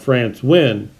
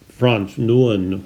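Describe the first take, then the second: First: The surname is said the Vietnamese way. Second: The surname is said with a French accent. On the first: "if that name was pronounced in Vietnam, it would be called" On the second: "it's pronounced with a French uh, accent"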